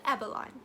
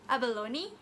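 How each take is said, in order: First: It is said as each letter suggests. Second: It is said the standard English way.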